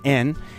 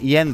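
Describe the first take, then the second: First: The word starts with a plain vowel. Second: The word starts with a y sound. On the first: This is the Japanese way of saying it. "in Japanese pronunciation, ... it's en" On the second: This is the English way of saying it. "it's not yen though"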